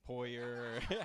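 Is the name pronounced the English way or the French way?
English. The name is said with an English pronunciation. "I'm not French really, so I say Poyer"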